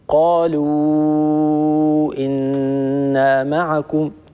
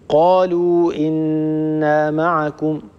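First: The long vowel before the glottal stop is lengthened. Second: The long vowel before the glottal stop is short.

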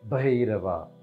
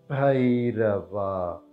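First: It is said at normal speed. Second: It is said slowly.

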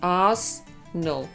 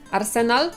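First: It is said with two syllables. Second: It is said with three syllables. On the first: This is the British way of saying it. "Brytyjczycy mówią Arsenal. To są tylko dwie sylaby" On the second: This is the Polish way of saying it. "Arsenal możemy mówić po polsku"

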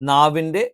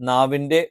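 Both takes have the same delivery.

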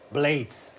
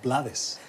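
First: It is read with English sounds, one syllable. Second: It is read with Spanish sounds, two syllables. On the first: The speaker calls it right. "¿Lo he dicho bien? Lo has dicho perfecto" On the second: The speaker calls it wrong. "yo siempre hubiese dicho Rubén Blades"

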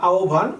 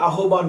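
First: The cluster is sounded like 'obh', as aobhan. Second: The letters are sounded out with h and b. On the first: The speaker calls it right. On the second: The speaker calls it wrong.

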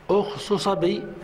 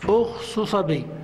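The two takes are said the same way.

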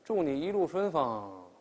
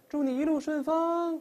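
First: The voice falls toward the end. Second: The voice rises toward the end. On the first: It sounds like wishing the traveler an accident. The speaker calls it wrong. "也不能说祝你一路顺风，这路上非出车祸不行的" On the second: A friendly wish for a good trip. The speaker calls it right. "声调是往上走的"

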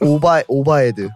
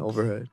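First: It is said with Korean pronunciation. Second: It is said with English pronunciation.

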